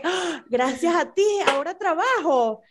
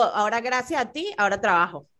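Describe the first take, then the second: First: Rising thankful lilt on "gracias a ti", warm fall on "trabajo"; grateful reading. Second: Resentful reading. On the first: Friend demonstrating how thanks should sound to her coworkers. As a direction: say it as sincere thanks, voice lifted. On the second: Friend demonstrating the same words turned into a reproach. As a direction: say it as a complaint, blaming the listener. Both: Shown as a demonstration. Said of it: "la connotación es importantísima".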